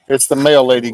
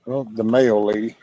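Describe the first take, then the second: First: Higher, louder excited call; talking it up to the dog. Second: Said in the usual way. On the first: Real, not acted. Dogs spot the mail lady.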